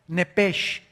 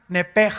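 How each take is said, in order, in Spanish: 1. La palabra termina en un 'sh' suave, como un siseo. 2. La palabra termina en un 'j' raspado y gutural. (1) "así como suena" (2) "se pronuncian en hebreo como J"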